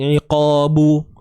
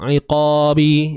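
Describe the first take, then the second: First: The final b is followed by a u vowel. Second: The final b is followed by an i vowel. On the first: "dia bukan begitulah, hindar" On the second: "dia bukan begitulah, hindar"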